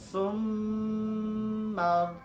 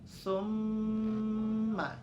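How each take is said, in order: First: The nasal m is held for three beats. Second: The nasal m is held for two beats. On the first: "Summa tiga boleh" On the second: "Dua ketukan, dua harokat itu summa"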